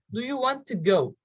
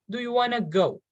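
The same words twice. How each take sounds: First: Said in the usual way. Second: "want to" merged into "wanna", no T; reduced "wanna". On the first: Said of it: "Instead of want to". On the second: Shown as a demonstration. Teacher showing learners natural speech, reduced "wanna". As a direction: say "wanna" as WAH-nuh. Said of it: "you can say wanna".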